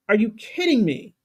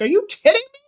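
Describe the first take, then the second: First: Said in the usual way. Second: High, louder, furious disbelief; exasperated outburst. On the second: Retold or imitated. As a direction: shriek it at the scared ones. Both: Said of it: "wanted to slap the mess out of them".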